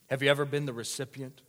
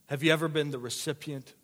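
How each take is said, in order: Both takes have the same delivery.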